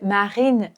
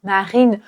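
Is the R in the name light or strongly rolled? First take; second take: light; light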